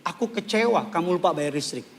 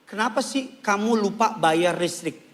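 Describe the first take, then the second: First: Calm complaint. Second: Accusing question. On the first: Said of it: "Diskusiinlah masalahnya, bukan serang identitasnya". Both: Shown as a demonstration.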